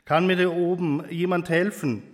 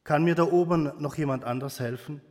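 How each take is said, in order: First: Slightly raised, pleading call upward; mild call for help. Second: Quicker, restrained second plea; understated call. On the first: Man dangling from a cliff to anyone above, mildly calling out. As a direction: read a restrained cry for help. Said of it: "rief der Mann, der hilflos". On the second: Man after a long pause seeking another helper, understated call. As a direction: ask upward briskly, barely raising the voice. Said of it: "rief der Mann". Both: A narrator's reading.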